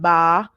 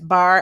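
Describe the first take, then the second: First: The final R sound is dropped entirely. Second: The final R sound is clearly pronounced.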